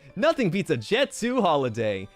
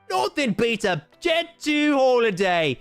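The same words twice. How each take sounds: First: It is read in the speaker's ordinary accent. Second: It is read in a put-on British accent.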